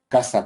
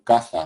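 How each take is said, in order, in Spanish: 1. La consonante del medio es un sonido s. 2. La consonante del medio es un sonido th. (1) "pronunciado como S, lo que vamos a llamar eh, apico alveolar" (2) "pronunciado como interdental y esos hablantes van a decir caza, lugar donde se vive"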